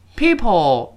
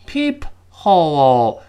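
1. 读快时 h 省掉，像 'people'。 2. 慢慢读时，中间的 h 要发音。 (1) "但是你读快之后它读成" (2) "我们读慢的情况下是"

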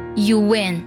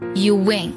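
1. 一个 w 音把 'you' 和 'in' 连接起来。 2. 一个 w 音把 'you' 和 'in' 连接起来。

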